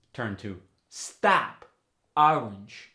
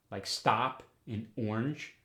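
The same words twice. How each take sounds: First: "stop" and "orange" with an open ah, slow; New York short O. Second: Said in the usual way. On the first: Shown as a demonstration. Teacher demos the New York ah sound. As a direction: stretch "stop" to stahp. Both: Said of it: "goes to the ah sound".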